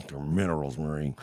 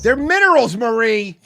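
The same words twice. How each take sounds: First: Lower, deeper mock character voice; gruff imitation. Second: High and loud emphatic take; quoted catchphrase. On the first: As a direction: drop the voice low and gruff. Second take, different voice. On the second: Retold or imitated. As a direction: fire it off high and indignant. Quoting a TV line twice.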